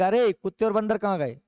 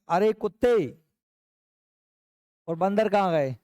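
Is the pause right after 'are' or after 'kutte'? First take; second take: after are; after kutte. First: A pause follows 'are', asking about dogs and monkeys. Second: A pause follows 'kutte', addressing someone as a dog.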